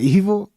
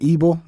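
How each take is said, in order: First: The middle consonant is a V sound. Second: The middle consonant is a B sound. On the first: "instead of" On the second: "pronounce his V's as B's"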